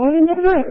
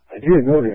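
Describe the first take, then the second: First: Higher retold protest; mock innocent reply. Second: Said in the usual way. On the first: Answering the cop about the expired tag, higher mock innocent voice. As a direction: replay your own surprised answer up high.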